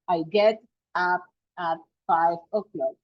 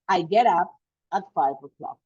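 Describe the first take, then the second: First: The words are said with breaks between them. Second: The words run together without breaks. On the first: The speaker calls it wrong. "So we don't say get up" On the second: The speaker calls it right. "I will say"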